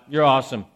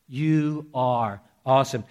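First: It is said casually and breezily. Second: It is said in trembling awe.

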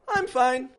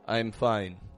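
First: Both words are said at a raised, higher pitch. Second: Both words are said at a lower, flatter pitch. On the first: The speaker really is fine. The speaker calls it right. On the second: The speaker may not really be fine. The speaker calls it wrong.

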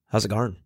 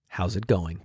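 First: The word going is shortened to garn. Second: The word going is said in full.

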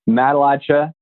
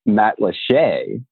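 First: It is pronounced the way outsiders say it. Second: It is pronounced the way locals say it. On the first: The speaker is not from there. "you're not a local" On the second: The speaker is from there. "then you're from there"

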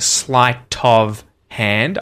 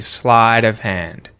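First: The T in sleight is a clear T. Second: The T in sleight is a flap. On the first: "I'm not saying sleight of hand" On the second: "I'm saying sleight of hand. It turns into a T flap"

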